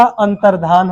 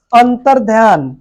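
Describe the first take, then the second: First: अंतर्धान ending in 'dhaan', no y; correct pronunciation. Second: अंतर ध्यान ending in 'dhyaan'; wrong pronunciation. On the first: Teacher giving the right word, ending plain 'dhaan'. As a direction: drop any y from अंतर्धान. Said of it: "शुद्ध शब्द है". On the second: Teacher showing the faulty word, ending 'dhyaan'. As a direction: put a y into the end of अंतर ध्यान. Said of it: "फिर गलत दिया है". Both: Shown as a demonstration.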